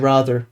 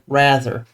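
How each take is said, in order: First: It sounds partly British, not fully. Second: It sounds fully American. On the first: "I say rather still, not as full British" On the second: "rather than rather"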